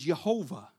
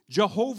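First: The word begins with a soft, non-J sound. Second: The word begins with a hard J sound. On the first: The speaker calls it right. "It was Jehovah" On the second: The speaker calls it wrong. "wasn't supposed to be some hard J at the beginning"

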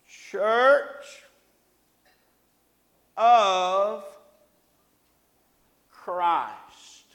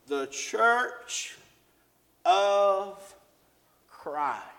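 First: It is said slowly and deliberately. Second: It is said at a normal speed.

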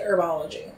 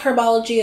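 First: The initial H sound is silent. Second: The initial H sound is pronounced. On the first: "I understand why people would say herbology" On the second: "I think we should go with herbology as well"

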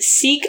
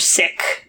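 First: The vowel is long, like 'seek'. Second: The vowel is short, like 'sick'. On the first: This is the usual English speakers' pronunciation. "we English speakers tend to pronounce it Sikh" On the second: This is the pronunciation from the word's own language. "in its own language, Sikh is the correct pronunciation"

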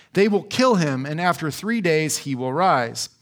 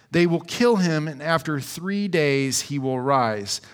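No difference in how they are said.

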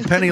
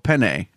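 First: The name ends with an 'ee' sound. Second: The name ends with an 'ay' sound. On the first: It is said like the coin. "penny like the money" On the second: It is said the Italian way. "I'm Italian, so I go penne"

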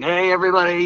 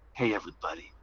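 First: It is yelled loudly. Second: It is said quietly.

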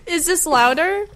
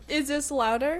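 First: The voice level is louder and nearly clipping. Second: The voice level is quieter and cleaner. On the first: The speaker calls it wrong. "I think it is" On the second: The speaker calls it right. "No, that's better"

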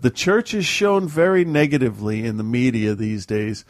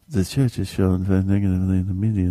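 First: It is read with lots of vigor. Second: It is read quietly and feebly.

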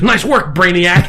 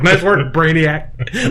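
First: The phrase is said plainly and sincerely. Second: The phrase is said with a sarcastic tone. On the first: The praise is meant honestly. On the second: The praise mocks how obvious the answer was.

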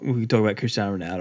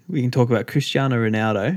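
First: It is said very fast. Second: It is said more slowly.

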